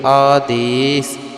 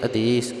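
First: The first vowel is long and stretched out. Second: The first vowel is short, not drawn out. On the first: The speaker calls it right. "ਐੜੇ ਨੂੰ ਕੰਨਾ ਲਗਾ ਕਰਕੇ ਪਾਠ ਨੂੰ ਖਿੱਚ ਕਰਕੇ" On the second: The speaker calls it wrong. "ਕਈ ਵਾਰ ਭੁੱਲਵਸ਼ ਕਈ ਕਹਿ ਦਿੰਦੇ ਆਦੇਸ਼, ਸੋ ਉੱਥੇ ਐੜੇ ਦਾ ਜੋ ਕੰਨਾ ਹੈ ਉਹ ਮਿਸ ਹੋ ਜਾਂਦਾ"

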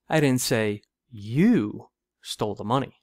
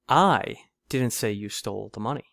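First: The stress is on "you". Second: The stress is on "I".

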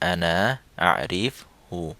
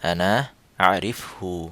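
The two takes are said the same way.

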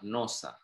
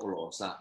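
First: The word begins with an N sound. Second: The word begins with an L sound. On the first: The speaker calls it right. "Ini nifalnya" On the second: The speaker calls it wrong. "Lo kok losa?"

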